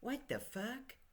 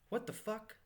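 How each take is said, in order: First: It is said in a dumbfounded, incredulous way. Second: It is said in a plain, flat way.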